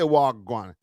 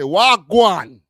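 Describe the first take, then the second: First: The word is said weakly, with little force. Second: The word is said with a lot of force. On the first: The speaker calls it wrong. "Don't say wagwan" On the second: The speaker calls it right. "A little bit more oomph on it"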